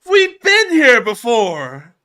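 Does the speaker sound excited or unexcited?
excited. It is said in a more excited way.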